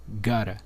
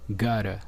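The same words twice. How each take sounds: Both takes have the same delivery.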